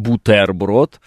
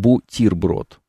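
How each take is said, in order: First: The vowel after the t sounds like 'e'. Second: The vowel after the t sounds like 'i'. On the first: The speaker calls it wrong. "Там не «э», уж точно, не «бутерброд»" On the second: The speaker calls it right. "она превращается в «и». То есть мы говорим «бутерброд»"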